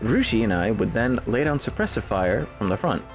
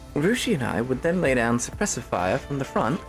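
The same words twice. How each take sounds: First: It is read in the speaker's ordinary accent. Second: It is read in an American Southern accent.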